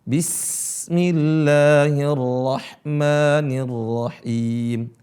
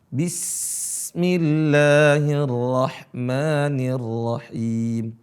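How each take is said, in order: Both takes have the same delivery.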